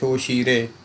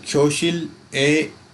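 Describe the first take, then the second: First: The consonant flows into the vowel as r. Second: The consonant is cut off before the vowel. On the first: The speaker calls it right. "इसको कहना है ख्योशीरे" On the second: The speaker calls it wrong. "ख्योशिल ए नहीं कहना है"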